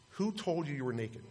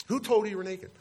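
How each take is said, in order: First: Softly voiced question from God; understated quoted question; quiet question. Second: "told" stressed, pitched high and falling away; higher, insistent questioning with weight on "told"; emphatic repeat. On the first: Voicing God's question, first take. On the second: Retold or imitated. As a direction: press the question, voice jumping up on "told".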